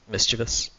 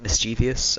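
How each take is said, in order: First: No extra 'ee' sound comes before the ending. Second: An extra 'ee' sound comes before the ending. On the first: The speaker calls it right. "it's actually pronounced mischievous. There is no additional I in there" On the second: The speaker calls it wrong. "grow up pronouncing it mischievous"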